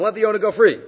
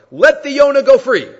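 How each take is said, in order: First: Said in the usual way. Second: High, loud acted call. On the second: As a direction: call up loudly to the man on your shoulders. Acts out man calling upward.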